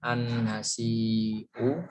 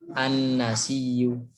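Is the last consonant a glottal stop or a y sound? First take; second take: glottal stop; y sound. First: A glottal stop comes before the last vowel. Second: A doubled y sound comes before the last vowel. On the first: "merubah hamzah menjadi ya" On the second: "sehingga menjadi an-nasiyu"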